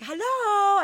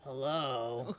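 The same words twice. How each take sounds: First: Bright sing-song hello, much higher and louder; cheery hello. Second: Low, quiet, menacing hello; scary man voice. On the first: Calling to the roommate she thinks came home, cheery. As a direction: call out a cheerful hello to the house. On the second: Imitating the stranger's deep voice answering her, low and ominous. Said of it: "I heard the scary voice". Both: Retold or imitated.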